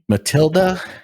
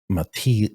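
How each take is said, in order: First: The name is said the English way, ending in 'uh'. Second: The name is said the French way, without a final vowel. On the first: The speaker calls it wrong. "I'm saying that wrong" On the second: The speaker calls it right. "It's French"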